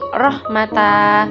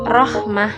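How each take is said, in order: First: The word ends with the syllable ta. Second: The word ends with a short h sound. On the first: The speaker calls it wrong. "ataupun rahmata" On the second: The speaker calls it right. "tetapi dibaca rahmah"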